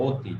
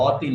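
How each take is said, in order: First: অতি with a closed "o" at the start; correct pronunciation. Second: অতি with an open "aw" at the start, louder; wrong pronunciation demo. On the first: Teacher correcting students to অতি said with an ও sound. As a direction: round the first vowel of অতি into ও. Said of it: "এখানে ও এর মতো হয়েছে". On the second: Teacher showing students the wrong অতি, emphatic open first vowel. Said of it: "অতি না, অতি". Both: Shown as a demonstration.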